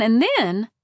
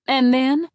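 First: "and then" falls away into a dramatic pause; trailing sing-song pause. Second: "And then" louder, with a lifted rising tune; rising dramatic resume. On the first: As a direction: let "and then" drop and hang before the reveal. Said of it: "Mom would continue in her sing-song voice". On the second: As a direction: pick up "And then" bright and rising to the payoff. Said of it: "she always paused here". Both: A narrator's reading.

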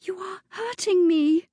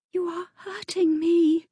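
First: High, fearful protest; girl in pain crying out to her attacker; frightened cry. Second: High, fearful protest; girl pleading with her attacker; frightened plea. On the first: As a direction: beg him to let go, scared. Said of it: "The girl's voice held a thread of fear". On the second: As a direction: tell him he hurts you, afraid. Girl held by angry viscount. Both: Acted.

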